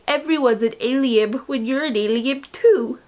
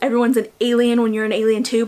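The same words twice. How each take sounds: First: Alien is said with a B sound in it. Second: Alien is said without any B sound. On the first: "I always say ... I pronounce the B's" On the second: "I know it's"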